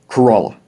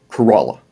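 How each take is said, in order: Both takes have the same delivery.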